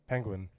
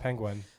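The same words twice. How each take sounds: First: The last syllable sounds like 'gwin'. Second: The last syllable sounds like 'gwhen'. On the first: The speaker calls it right. "There you go" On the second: The speaker calls it wrong. "That's not how you're pronouncing it"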